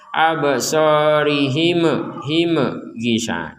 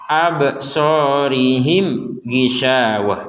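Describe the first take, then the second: First: The m is released with a bouncing echo. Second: The m is held plainly without any bounce. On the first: The speaker calls it wrong. "Jangan sampai di sini juga dipentalkan seperti ba" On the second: The speaker calls it right. "yang mim gak dipentalkan"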